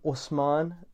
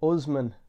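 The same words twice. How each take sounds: First: The name is said with its original pronunciation. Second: The name is said with an anglicized pronunciation. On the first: This is how the name's owner says it. The speaker calls it right. "I would pronounce my name Usman" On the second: This is how others at school said the name. The speaker calls it wrong. "this is what I was called in schools"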